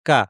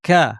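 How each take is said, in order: First: The k is soft, with no extra breath. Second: The k is hard, with a puff of breath. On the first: "আমরা এভাবে বলি বাংলায়" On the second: "আরবিতে এটাকে শক্ত করে বলা হয়"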